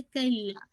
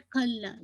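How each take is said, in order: First: कल्ला with a plain unaspirated k; correct pronunciation. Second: खल्ला with a breathy aspirated kh; wrong pronunciation. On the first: Teacher models the right word to students, correct pronunciation. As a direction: say कल्ला with a clean k, no puff. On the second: Teacher shows students the mistake, wrong pronunciation. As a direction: say खल्ला with kh in place of k. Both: Shown as a demonstration. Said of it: "not खल्ला".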